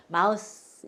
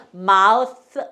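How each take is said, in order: First: 마우스 as 'mouse', final sound a hissed s; ending in S. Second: 마우스 as 'mouth', final sound a th; ending in TH. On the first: Teacher showing the word for mouse, 마우스 ending in s. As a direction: say 마우스 with a plain s at the end. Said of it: "이렇게 하면은 그 생쥐나". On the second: Teacher showing the word for mouth, 마우스 ending in th. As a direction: say 마우스 with tongue between teeth at the end. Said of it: "이렇게 해야지 입이 되는". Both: Shown as a demonstration.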